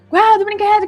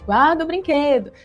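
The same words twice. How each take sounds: First: It is said loudly, as a shout. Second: It is said at a normal, calm volume. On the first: The parent has lost patience. "você aumenta o seu tom de voz e o grito aparece" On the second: The parent is still asking patiently. "Você repete"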